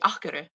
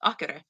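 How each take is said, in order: First: It is said fast, with the sounds run together. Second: The same.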